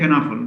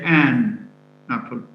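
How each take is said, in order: First: The word 'an' has a weak schwa vowel. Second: The word 'an' has a full 'a' vowel. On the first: The speaker calls it right. "The unstressed word is pronounced with a schwa instead of an a sound" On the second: The speaker calls it wrong. "we don't say an apple"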